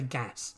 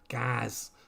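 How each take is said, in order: First: The vowel in gas is short. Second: The vowel in gas is drawn out long. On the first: This is how the speaker does not say it. "I don't say gas" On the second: This is how the speaker says it. "About five A's in"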